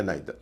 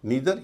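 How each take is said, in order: First: नाइदर said "NIGH-ther"; second accepted pronunciation. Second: नीदर said "NEE-ther"; first accepted pronunciation. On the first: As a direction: say नाइदर with an "eye" vowel. (नाइदर, "आइ" की आवाज़ के साथ) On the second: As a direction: say नीदर with a long "ee". (नीदर, लंबी "ई" के साथ) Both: Shown as a demonstration. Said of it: "दोनों उच्चारण चलते हैं".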